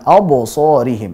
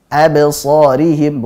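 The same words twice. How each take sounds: First: The echoing b sounds thick and heavy. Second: The echoing b sounds thin and light. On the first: The speaker calls it wrong. "bukan absarihim" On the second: The speaker calls it right. "yang tipis juga pantulannya harus tipis"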